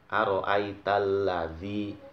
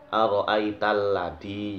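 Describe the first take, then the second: First: The consonant in 'ladzi' is a soft th sound. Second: The consonant in 'ladzi' is a hard d sound. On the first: The speaker calls it right. "huruf zal" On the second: The speaker calls it wrong. "dibaca dal"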